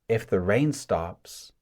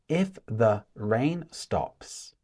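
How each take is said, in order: First: The words run together like one long word. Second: The words are said separately, one by one. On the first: The speaker calls it right. "it sounds like one long sentence, right? Or one long word. Continuous speech" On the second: The speaker calls it wrong. "So it's not"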